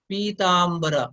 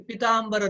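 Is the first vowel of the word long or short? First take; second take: long; short. First: The first vowel 'i' is long. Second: The first vowel 'i' is short. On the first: The speaker calls it right. "पी दीर्घ स्वर" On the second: The speaker calls it wrong. "ये पीताम्बर नहीं होना चाहिए"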